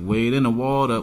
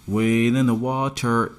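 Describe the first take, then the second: First: Water ends with a soft da sound. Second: Water ends with a clear t and r.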